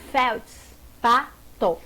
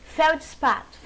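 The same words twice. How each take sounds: First: Slow feldspato, felds-pa-to with gaps; syllable by syllable. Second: Said in the usual way. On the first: Shown as a demonstration. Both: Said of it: "como separa".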